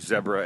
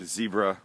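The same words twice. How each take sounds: First: It is said with a South African pronunciation. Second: It is said with an American pronunciation.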